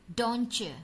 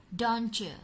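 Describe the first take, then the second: The two takes are said the same way.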